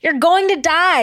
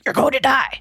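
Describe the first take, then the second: First: It is read in a plain, ordinary voice. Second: It is said in a low, growling, demonic voice. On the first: The speaker calls it wrong. "she's not saying it like that" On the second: The speaker calls it right. "She's saying it like, ... like a demon"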